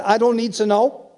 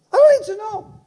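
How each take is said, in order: First: Said in the usual way. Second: Sing-out high repeat of the point; high-pitched exclamation. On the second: Acted. Preacher repeats to congregation he needn't know, high exclamation. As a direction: leap up high on the whole phrase.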